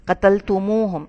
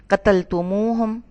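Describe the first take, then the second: First: Said in the usual way. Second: قتلتموہم said slowly, each part qatal-tum-u-hum clear; slow down on قتلتموہم to show the added waw; قتلتموہم broken into careful syllables; slow, spelled-out word. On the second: Shown as a demonstration. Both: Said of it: "اصل میں ہے قتلتم plus واو plus ہم".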